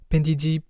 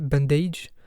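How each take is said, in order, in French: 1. Le nom est prononcé à la coréenne. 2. Le nom est prononcé à l'anglaise. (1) "j'ai gardé la prononciation coréenne" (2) "avec un accent anglais"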